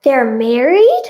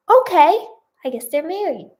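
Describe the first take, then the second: First: Slow, louder question, rising sharply; surprised question. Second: Bemused acceptance. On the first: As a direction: draw it out in disbelief. Reader reacts to plot twist. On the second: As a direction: concede it, still puzzled. Reader accepts the plot twist. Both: Real, not acted.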